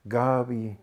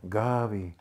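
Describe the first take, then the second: First: The name is said softly and warmly. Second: The same.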